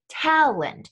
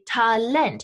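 First: The stress is on the first syllable. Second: The stress is on the second syllable.

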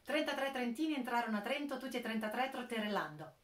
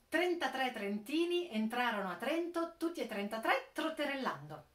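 First: It is said at a faster, quicker pace. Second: It is said at a slower, careful pace. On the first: "E ora provo più velocemente" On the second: "Ripeto ancora il proverbio"

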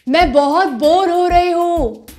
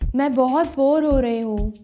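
First: It is said at a loud volume. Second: It is said at a soft volume.

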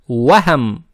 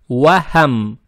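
First: The w and h sounds are soft. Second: The w and h sounds are soft.

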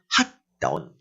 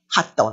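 First: The words are said at a normal pace. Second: The words are said quickly.

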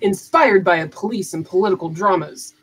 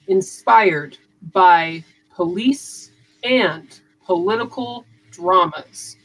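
First: It is said quickly with words run together. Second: It is said slowly with every syllable pronounced clearly. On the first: The speaker calls it wrong. "I talk really fast, and sometimes I do have a tendency to mumble" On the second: The speaker calls it right. "I have to slow everything down and really pronounce the syllables"

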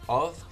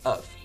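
First: The vowel is a full, clear vowel. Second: The vowel is reduced to a weak schwa. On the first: The speaker calls it wrong. "instead of saying of" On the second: The speaker calls it right. "The schwa sound, ... we would say of"

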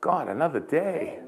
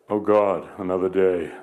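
First: It is said in a grateful, upbeat tone. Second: It is said in a weary, dreading tone. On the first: The new day is a gift to be thankful for. The speaker calls it right. "Same words, ... Totally different" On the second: The new day is a burden to be dreaded. The speaker calls it wrong. "My words used to be"

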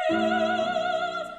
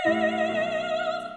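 Both takes have the same delivery.

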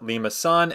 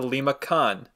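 First: The c is pronounced as a soft s sound. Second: The c is pronounced as a hard k sound. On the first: The speaker calls it right. "you want to pronounce it as the soft C, which is why it's a Limacon" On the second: The speaker calls it wrong. "and not a Limacon"

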